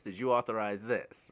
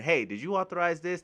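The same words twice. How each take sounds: First: Said in the usual way. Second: Lightly voiced, a bit higher pestering query; mock accountant nagging. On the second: Accountant pestering the parents, lightly voiced higher nagging. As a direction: pester them a little, half-mocking.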